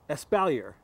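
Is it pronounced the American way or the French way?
American. It is pronounced the American English way.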